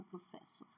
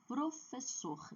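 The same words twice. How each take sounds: First: Professor stressed on FES, with a weak -sor; wrong stress. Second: Professor, slow, with a long strong -SOR; stress on last syllable. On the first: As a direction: misstress professor, dropping the last syllable. (professor com a última sílaba fraca) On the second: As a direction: draw out the final syllable of professor. (professor com a última sílaba forte) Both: Shown as a demonstration. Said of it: "não é professor".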